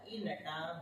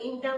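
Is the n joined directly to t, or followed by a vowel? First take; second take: vowel; joined. First: The n carries a vowel, split from the start. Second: The n joins straight onto t without a vowel. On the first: The speaker calls it right. "ई अलग कर दो, नटा अलग कर दो तो और अच्छा है" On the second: The speaker calls it wrong. "अगर अपन इंटा बोलेंगे ना तो ये हलंत हो जाएगा"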